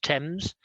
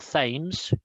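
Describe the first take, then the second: First: The word begins with a plain 't' sound. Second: The word begins with a 'th' sound. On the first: The speaker calls it right. "It's pronounced Thames" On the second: The speaker calls it wrong. "It's not Thames. The T H is not pronounced"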